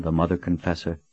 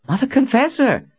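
First: Said in the usual way. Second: Much higher, loud cry of the title; surprised exclamation. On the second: A narrator's reading. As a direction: blurt the name in delighted awe. Young man exclaims her title.

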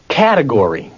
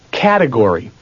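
Both takes have the same delivery.

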